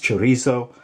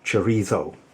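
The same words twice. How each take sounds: First: The word is said with a plain Spanish z sound. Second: The word is said with a lisped z sound. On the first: This is the standard Spanish way. "It's chorizo" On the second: This is how people in Madrid say it. "if you live in Madrid and you have the official Madrid lisp"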